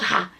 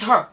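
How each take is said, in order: First: "her" said as an open "ha"; mimicked mispronunciation. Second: "her" with a central er vowel; corrected pronunciation. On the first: Children quoting mother's wrong word back, "her" said as "ha". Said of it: "My children will be". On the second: Retold or imitated. Children correcting their mother, "her" said with an er vowel. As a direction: round "her" to "hur", not "ha". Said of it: "that's not how to say it".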